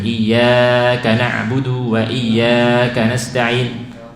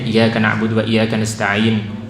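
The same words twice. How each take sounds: First: The long vowels are drawn out too far. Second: The long vowels are cut too short. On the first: "kadang terlalu panjang" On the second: "atau pendek"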